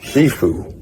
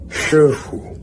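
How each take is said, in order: First: It is said with an English-style accent. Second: It is said with a native Mandarin accent. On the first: "foreign pronunciation would be" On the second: "actual pronunciation would be"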